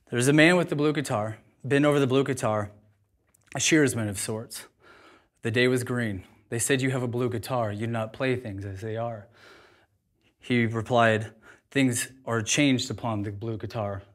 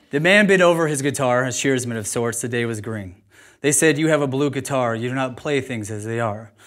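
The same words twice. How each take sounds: First: Poem recitation. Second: Reading the poem from the page, steady. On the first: Speaker recites poem to audience, measured reading. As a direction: recite each line with weight, lingering. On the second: Speaker reads poem from paper, steady. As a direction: read it aloud, measured. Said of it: "I'm gonna read it". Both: Acted.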